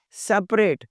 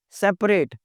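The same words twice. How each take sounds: The two takes are said the same way.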